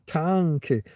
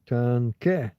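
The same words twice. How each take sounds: First: The stress is on the first syllable. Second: The stress is on the last syllable. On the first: The speaker calls it wrong. "I think I pressed down at the beginning" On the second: The speaker calls it right. "you're supposed to be tanke. You're supposed to hit the end"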